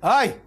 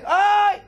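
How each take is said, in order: First: Brief, louder "ow"-like yelp; a modest yelp, quickly over; short cry of pain. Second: High, loud yelp of pain; loud scream. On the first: Gold struck by the hammer, short weak cry. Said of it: "הוא שומע פתאום אחד צועק". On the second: Iron screaming under the hammer, loud high cry. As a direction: yelp as if struck hard. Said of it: "והברזל צועק". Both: Acted.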